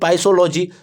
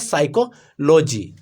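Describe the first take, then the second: First: The word begins with a pronounced p sound. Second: The word begins with an s sound, p silent. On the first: The speaker calls it wrong. "तो नहीं" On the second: The speaker calls it right. "इसमें P क्या होता है? Silent होता है"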